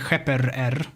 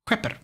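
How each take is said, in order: First: The final r sound is repeated twice. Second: The final r sound is said only once. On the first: The speaker calls it wrong. "you don't say heper er" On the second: The speaker calls it right. "you just say heper"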